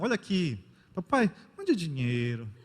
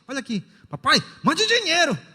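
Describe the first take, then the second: First: The request is read in a sweet, gentle tone. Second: The request is read in a rude, demanding tone.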